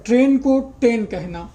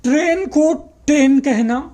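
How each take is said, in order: First: Said in the usual way. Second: ट्रेन said as टेन, dropping the r; mispronouncing train as ten. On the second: Shown as a demonstration. Teacher demonstrating a child's slurred ट्रेन as टेन. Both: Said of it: "जैसे".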